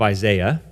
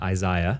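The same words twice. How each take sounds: First: It is said in an American accent. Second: It is said in an English accent.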